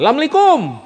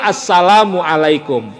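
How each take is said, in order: First: The greeting is clipped, dropping its opening syllables. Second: The greeting is said in full, every syllable. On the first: The greeting is given carelessly. The speaker calls it wrong. "orang salam asal-asalan" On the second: The greeting is given properly. The speaker calls it right. "mesti benar"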